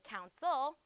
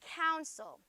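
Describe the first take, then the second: First: The stress is on the second syllable. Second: The stress is on the first syllable. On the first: The speaker calls it wrong. "I don't say counsel" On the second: The speaker calls it right. "Cown is accented"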